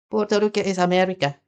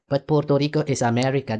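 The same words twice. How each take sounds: First: Higher and faster, a sneering echo; scoffing repeat, pitched up and rushed; mocking. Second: Said in the usual way. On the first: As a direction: toss the line back in mock disbelief. Repeats the claim, second mocking take.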